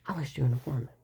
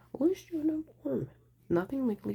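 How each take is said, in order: First: Said in the usual way. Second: "I'll issue an informant" pitched much higher and louder; "I'll" punched up high, then falling off; emphatic repeat. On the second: Retold or imitated. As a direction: hit "I'll" high and let it fall. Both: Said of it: "he said".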